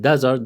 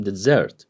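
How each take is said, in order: First: DESert, weight on the first syllable; desert stressed at the front. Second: DeSSERT, weight on the last syllable; weak start, hit the end of dessert; dessert stressed at the back; stress on second syllable. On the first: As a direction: hit DE in desert, let the end go weak. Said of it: "the stress on da". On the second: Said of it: "different from". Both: Shown as a demonstration.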